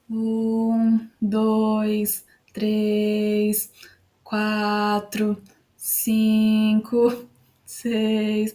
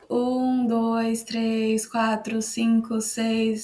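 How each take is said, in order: First: The numbers are counted slowly. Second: The numbers are counted very quickly. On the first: "Se eu contar mais devagarinho do que minha velocidade normal" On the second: "começar a falar mais rápido na velocidade dois x"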